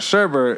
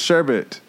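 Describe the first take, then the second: First: An extra R sound is in the second syllable. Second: No extra R sound is in the second syllable. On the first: The speaker calls it wrong. "not sherbet" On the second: The speaker calls it right. "it's sherbet"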